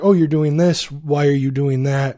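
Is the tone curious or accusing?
curious. It sounds open and genuinely curious.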